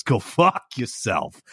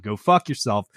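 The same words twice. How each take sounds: First: Slow Go fuck yourself, fuck leaned on like held-back laughter; New York curse. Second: Said in the usual way. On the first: Shown as a demonstration. [name] showing the held-back-laughter New York curse. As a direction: drag fuck out almost laughing. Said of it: "like you're holding back laughter". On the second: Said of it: "it's not".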